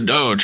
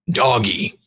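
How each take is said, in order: First: It is said as one syllable, rhyming with lodge. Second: It is said as two syllables, like doggy. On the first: The speaker calls it wrong. "this is how you pronounce a doge" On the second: The speaker calls it right. "it should be pronounced doggy because it's dog e"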